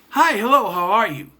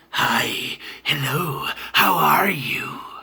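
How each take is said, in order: First: It is said in an ordinary, friendly voice. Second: It is said in a sinister, villainous voice. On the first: An ordinary person is greeting someone. "A normal person" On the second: The villain is greeting someone.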